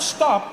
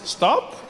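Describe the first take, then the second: First: It is said firmly, like a command. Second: It is said gently, like a suggestion.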